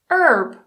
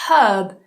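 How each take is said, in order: First: The H is silent and the R is sounded. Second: The H is sounded and the R is silent. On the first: "this time we remove the H, but we add the R" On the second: "So we pronounce the H"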